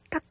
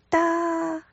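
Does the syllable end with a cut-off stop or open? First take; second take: cut-off stop; open. First: The syllable ends abruptly with the airflow cut off. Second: The syllable ends openly without stopping the airflow. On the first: The speaker calls it right. "发音结束的时候，舌头要往里面收，把气流截住" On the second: The speaker calls it wrong. "如果没有办法收住气流的话，就变成哒"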